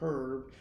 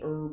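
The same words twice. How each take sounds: First: The word starts with a pronounced H. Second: The word starts with a silent H. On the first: "when we say horse" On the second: "the H is supposed to be silent"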